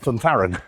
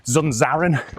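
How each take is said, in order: First: The name is said with th sounds. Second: The name is said with z sounds. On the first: The speaker calls it right. "but he's Spanish, so it actually would be Thuntharan" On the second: The speaker calls it wrong. "You probably heard it pronounced as at the weekend"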